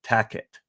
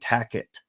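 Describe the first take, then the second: First: The middle consonant is a K sound. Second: The middle consonant is a K sound.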